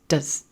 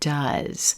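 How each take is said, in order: First: The vowel is reduced to a schwa. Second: The vowel is fully pronounced. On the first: It is used as a helping verb. "reduces and becomes does" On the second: It is used as the main verb. "fully pronounced"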